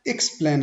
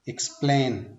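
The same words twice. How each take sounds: First: The stress is on the first syllable. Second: The stress is on the second syllable. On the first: The speaker calls it wrong. "Explain हमने नहीं बोलना" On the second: The speaker calls it right. "X को थोड़ा लो आवाज में बोलना है और बाद में हमने थोड़ा हायर साउंड पे थोड़ा स्ट्रेस देके"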